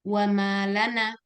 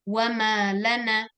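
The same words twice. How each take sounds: First: "wa malana" slowly, connected as one word; no word break inside "malana"; slow, evenly linked "wa malana"; read joined up. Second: "wa malana" slowly, weight on "ma" before "lana"; slow "wa malana", split as wa-ma, lana; read as two words. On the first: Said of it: "Yang kedua". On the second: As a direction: mark the word break in "wa ma / lana". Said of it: "Yang pertama". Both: Shown as a demonstration.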